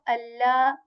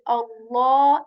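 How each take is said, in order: First: The L sound is light and thin. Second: The L sound is heavy and deep. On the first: "and not" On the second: "heavy way"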